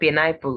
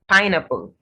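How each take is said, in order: First: The stress is on a later syllable. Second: The stress is on the first syllable. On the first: The speaker calls it wrong. "not pineapple" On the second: The speaker calls it right. "The first syllable of this word is stressed"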